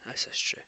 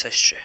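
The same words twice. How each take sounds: First: Unvoiced whisper, barely breathed. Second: Said in the usual way. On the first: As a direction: whisper the repeat like a secret. Whispered echo of same words.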